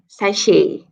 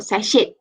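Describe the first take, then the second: First: "sachet" as sa-SHAY, T left silent; "sachet" pronounced French-style, silent final T. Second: "sachet" wrongly ending in a spoken T, sa-SHET; "sachet" said as "sa-shet", closing on T; sounded T. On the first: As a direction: say "sachet" ending on an open "ay", no final T. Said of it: "pronounce it with silent T". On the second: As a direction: pronounce the final T of "sachet". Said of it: "not sachet". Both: Shown as a demonstration.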